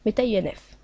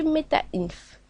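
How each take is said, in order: First: MetaINF with "INF" as French letter names i-enne-effe; INF spelled out. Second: MetaInf read as a word, "inf" as one syllable. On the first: Tutorial maker clarifying the folder name, INF spelled out. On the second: Tutorial maker naming the folder to delete, MetaInf as one word. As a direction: say MetaInf slowly, INF unspelled. Folder name said two ways. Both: Shown as a demonstration.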